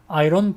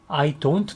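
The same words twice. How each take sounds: First: It is said quickly and run together. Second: It is said at a normal pace.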